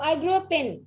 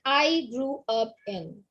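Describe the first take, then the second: First: The words run smoothly together without breaks. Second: Each word is said separately with small breaks. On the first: The speaker calls it right. "You are saying it together" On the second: The speaker calls it wrong.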